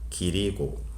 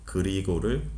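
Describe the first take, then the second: First: The first vowel is an 'i' sound. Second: The first vowel is an 'eu' sound. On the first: The speaker calls it wrong. "이 발음으로 하는" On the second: The speaker calls it right. "으 발음을"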